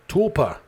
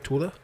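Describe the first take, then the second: First: The word is said with a p sound. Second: The word is said without a p sound. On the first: The speaker calls it right. "There's a P in there that I forgot about" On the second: The speaker calls it wrong. "Am I pronouncing that right?"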